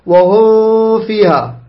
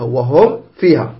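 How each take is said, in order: First: Very slow "وهم", meem dragged into "فيها"; beginner's hidden meem. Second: Slow, lower "وهم", cleanly closed before "فيها"; clear meem. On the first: Teacher imitates a beginner's mistake, dragged hidden meem. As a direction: draw out and hum the meem of "وهم" into the fa. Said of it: "يعني يخطأ، مبتدئ ما يعرف يقرأ". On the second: Teacher corrects the beginner's reading, clear meem. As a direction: finish the meem of "وهم" crisply, then say "فيها". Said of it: "تقرأها". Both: Shown as a demonstration.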